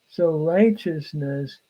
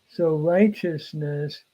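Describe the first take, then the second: The two takes are said the same way.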